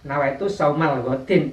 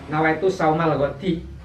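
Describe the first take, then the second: First: The last word ends with an n sound. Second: The last word ends without an n sound. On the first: The speaker calls it wrong. "kalau diberi al dibaca godin itu salah" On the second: The speaker calls it right. "Kalau diberi al"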